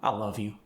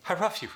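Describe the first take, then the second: First: Said in the usual way. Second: High "I love you" like "I ruff you", Korean accent. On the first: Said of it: "converted to an R". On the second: Shown as a demonstration. Coach demonstrating the difficult word love, Korean accent. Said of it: "That was converted to an R".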